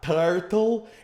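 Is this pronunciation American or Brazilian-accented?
Brazilian. It is said with a Brazilian Portuguese accent. The speaker calls it wrong. "It's not turtle"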